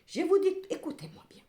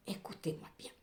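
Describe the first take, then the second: First: Higher, louder insistence; emphatic call. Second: Hushed, breathy repeat; whisper. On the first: Tarot reader insisting her viewers listen. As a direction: grab them by the ear with it. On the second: Tarot reader whispering the warning to her viewers. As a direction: lean in and whisper it like a secret. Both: Real, not acted.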